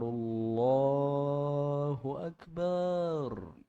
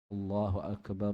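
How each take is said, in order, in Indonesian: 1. Vokal terakhir pada Akbar dibaca panjang. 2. Vokal terakhir pada Akbar dibaca pendek. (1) "jangan dibaca ... Nah, panjang" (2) "Ba langsung ro sukun"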